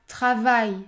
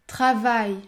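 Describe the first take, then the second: Both takes have the same delivery.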